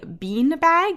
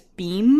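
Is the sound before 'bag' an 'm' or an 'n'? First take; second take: n; m. First: The first word ends in an n sound. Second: The first word ends in an m sound.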